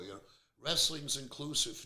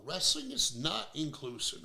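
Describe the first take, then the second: First: Said in the usual way. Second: "not" leaned on, slow and firm; slow it down and punch the word "not"; stress on not. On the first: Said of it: "I hear all the time". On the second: Real, not acted. Podcast host rebutting his critics, stressing "not". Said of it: "No, no".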